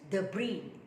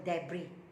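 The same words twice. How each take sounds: First: It is said in an American English pronunciation. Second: It is said in a non-American English pronunciation. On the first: "American English debris" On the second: "Saya selalu sebut debris"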